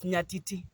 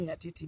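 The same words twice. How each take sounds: First: It is said with the traditional Luo pronunciation. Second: It is said with an urbanized pronunciation. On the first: The speaker calls it right. "but it's Nyatiti" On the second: The speaker calls it wrong. "because we have been urbanized a little bit, we say Nyatiti"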